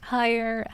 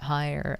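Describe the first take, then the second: First: The voice is pitched relatively high. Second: The voice is pitched relatively low. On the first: "then go higher" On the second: "start lower"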